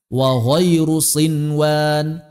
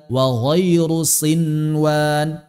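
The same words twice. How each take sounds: The two takes are said the same way.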